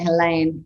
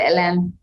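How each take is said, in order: First: The name is said with an Australian accent. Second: The name is said with a French accent. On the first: "I say it with an Australian accent" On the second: "If we were French, we would say"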